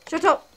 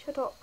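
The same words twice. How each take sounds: First: Shouted shut up; loud. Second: Said in the usual way. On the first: Acted. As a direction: yell Shut up!. Louder repeat of comment.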